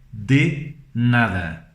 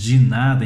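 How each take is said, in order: First: It has full, clear Spanish-style vowels. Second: It has Portuguese-style reduced vowels. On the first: "Em espanhol, a forma correta de se pronunciar é" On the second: "que nós falamos de nada em português"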